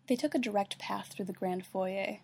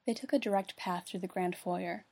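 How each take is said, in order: First: "foyer" said as foy-YAY; foyer French-style. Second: "foyer" said as FOY-er. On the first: Reader slips into the wrong accent, "foyer" as foy-yay. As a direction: end "foyer" on a yay sound. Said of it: "I don't say foyer". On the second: Reader retakes the line, "foyer" as FOY-er. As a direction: end "foyer" on an r sound. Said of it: "I say foyer". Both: Real, not acted.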